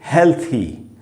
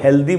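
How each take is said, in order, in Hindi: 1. बीच का व्यंजन एक नरम th की आवाज़ है। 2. बीच का व्यंजन d की आवाज़ है। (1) "थ का साउंड है" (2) "अक्सर हम लोग इसको हेल्दी बोलते हैं"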